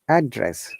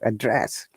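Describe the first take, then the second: First: The stress is on the first syllable. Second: The stress is on the second syllable. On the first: It is used as a noun. "if it is a noun, we stress on the first part or first syllable" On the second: It is used as a verb. "if it is used as verb, then we stress on the second syllable"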